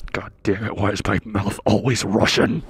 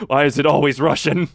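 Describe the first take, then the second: First: Low, grumbled mock exasperation; retold exasperation. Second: Mock-frustrated outburst, loud; retold exasperation, louder. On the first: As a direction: complain to yourself in a lowered voice. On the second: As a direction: raise your voice in mock complaint. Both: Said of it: "I straight up was just like".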